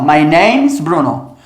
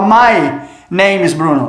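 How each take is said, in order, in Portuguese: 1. My e name são unidos sem pausa. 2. Há uma pausa entre my e name. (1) "Nunca eu vou pausar entre o adjetivo possessivo e a posse" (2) "Eu não posso chegar para você e falar"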